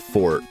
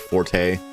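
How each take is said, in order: First: It is one syllable with a silent final vowel. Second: It is two syllables with the final vowel sounded. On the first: "Am I pronouncing that wrong?" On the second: "Am I getting too fancy by saying forte? I just see the E"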